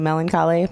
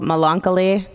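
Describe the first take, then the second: First: The word is said with its usual standard pronunciation. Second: The word is said with a deliberately altered pronunciation. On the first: It is the technically correct form. "technically melancholy" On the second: It copies a character who mispronounces the word. "he can't pronounce it, and that made me happy"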